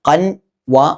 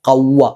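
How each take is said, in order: First: The n is pronounced clearly before the w. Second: The n merges into a nasalized w. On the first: The speaker calls it wrong. "കൻ വ അല്ല" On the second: The speaker calls it right. "ചേർത്ത് മണിക്കണം"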